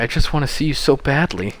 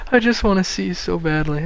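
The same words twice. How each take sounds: First: Said in the usual way. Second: High, hammed-up pleading; overdone yearning, pitched well up; mock yearning. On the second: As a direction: repeat it high as mock lovesick longing. Repeats line mockingly after laughing.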